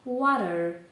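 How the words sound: It is said in an American accent. "В Америці скажуть water, тобто буква Т в нас вимовляється як наша українська Р"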